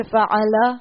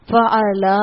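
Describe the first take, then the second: First: فعلا with the final a kept short; short fala. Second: فعلا with the final a drawn out long; stretched fala. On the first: Teacher showing the correct short ending of the word. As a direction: say فعلا crisply without stretching the end. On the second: Teacher showing the wrong stretched ending that changes the meaning. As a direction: drag the last vowel of فعلا. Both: Shown as a demonstration. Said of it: "پڑھ دیا آپ نے کھینچ کے".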